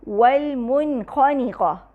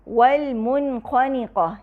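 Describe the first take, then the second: No difference in how they are said.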